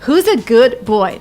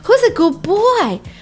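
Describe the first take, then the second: First: The word good ends with a clear d sound. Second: The d in good becomes a b sound. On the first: "not good boy. ... Nobody said that" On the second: "if you pronounce it the way they did it"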